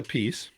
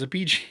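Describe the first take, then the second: First: The name ends like the word 'peace'. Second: The name ends with a 'b-g' sound. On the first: "because I say a piece" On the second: "my other brother says a B G"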